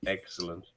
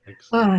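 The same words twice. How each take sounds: First: Said in the usual way. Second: A bright second "Excellent." loud and up; excited repeat. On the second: Real, not acted. Guest cheering the host's spoiled birthday, louder and higher.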